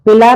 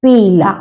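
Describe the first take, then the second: First: "पीला" said quickly and higher, as the way not to say it; wrong pronunciation. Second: "पीला" said plainly with the long ई; correct pronunciation. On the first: Teacher showing pupils the wrong reading, quick and high. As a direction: clip "पीला" short, the wrong way. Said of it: "पीला नहीं कहते". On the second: Teacher giving pupils the right reading. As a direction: give "पीला" its proper long ई. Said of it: "इसे हम कहते हैं". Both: Shown as a demonstration.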